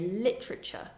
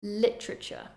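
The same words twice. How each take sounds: Both takes have the same delivery.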